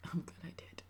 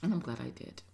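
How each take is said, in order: First: A quiet whispered afterthought; whispered echo. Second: Said in the usual way. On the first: Real, not acted. Whispering her relief to viewers, softly whispered. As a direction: repeat it in a soft whisper, to herself.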